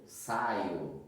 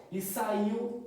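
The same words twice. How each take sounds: First: Saio said as SAI-o, with an o ending instead of saiu; mock the misreading saio, lower; wrong reading saio. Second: Said in the usual way. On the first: Shown as a demonstration. Teacher demonstrating the wrong saio to students, low. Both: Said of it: "não vai falar saio".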